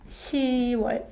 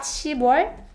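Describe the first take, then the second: First: No 'b' sound comes before 'wol'. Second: A 'b' sound comes before 'wol'. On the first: The speaker calls it right. "but it's 시월" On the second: The speaker calls it wrong. "So it's not 십월"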